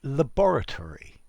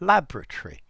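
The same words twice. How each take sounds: First: Every syllable of the word is pronounced. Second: Some syllables of the word are dropped. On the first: "we could say laboratory" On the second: "or we could just say laboratory ... we're missing out syllables"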